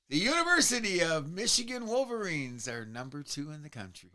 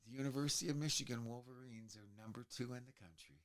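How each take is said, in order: First: It is said loudly. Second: It is said at normal volume.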